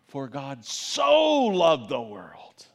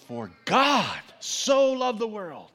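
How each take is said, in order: First: The word so carries the stress. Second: The word God carries the stress. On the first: The focus is on how much the world was loved. "your mind's thinking about how he loved the world, so loved the world" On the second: The focus is on who loved the world. "we think about this God who so loved the world"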